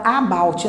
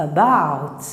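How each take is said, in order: First: "about" com A inicial aberto e cheio; erro de aluno. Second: "about" com A inicial fraquinho, quase "â"; schwa inicial fraco. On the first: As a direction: diga "about" como "Á-bauti", à brasileira. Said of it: "Muita gente fala about". ("about" com um "á" forte no começo) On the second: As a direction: reduza o A de "about" e apoie em "bout". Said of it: "Esse sonzinho aqui, ó, fraco". ("about" mais grave, com schwa átono no início) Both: Shown as a demonstration.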